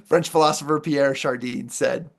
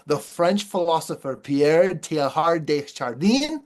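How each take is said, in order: First: Said in the usual way. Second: A self-mocking try at a French accent on the name; lightly put-on French accent, fumbling the name; amateur French accent, half joking. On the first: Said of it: "how did I do, guys?". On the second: Shown as a demonstration. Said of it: "let me give you my best French accent".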